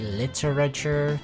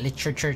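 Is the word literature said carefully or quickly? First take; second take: carefully; quickly. First: The word is said slowly and fully. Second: The word is said fast and clipped. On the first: The speaker calls it right. "I'll try to pronounce it correctly" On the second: The speaker calls it wrong. "I pronounce literature very quickly"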